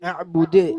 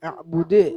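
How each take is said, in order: First: The final d ends with an echoing bounce. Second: The final d ends with an echoing bounce.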